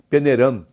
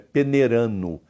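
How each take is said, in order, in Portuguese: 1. A palavra termina com som de 'm' nasal. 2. A palavra termina em 'no', sem o d. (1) "E em Minas, como o som do gerúndio termina com dois M's" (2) "é peneirano"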